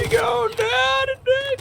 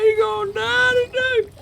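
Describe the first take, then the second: First: Even higher gleeful screech; hype battle yell. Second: Very high gleeful yelling; hype battle yell. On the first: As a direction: top it with a higher shriek. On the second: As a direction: screech it like a war cry. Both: Real, not acted. Finishing off the gator.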